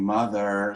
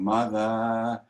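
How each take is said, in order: First: The final r sound is clearly pronounced. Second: The final r sound is dropped. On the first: This is hard to sing. The speaker calls it wrong. "You can't sing mother" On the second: This is easier to sing and sounds English. The speaker calls it right. "it's more common to sing mother, and that sounds a little English"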